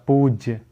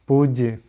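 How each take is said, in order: No difference in how they are said.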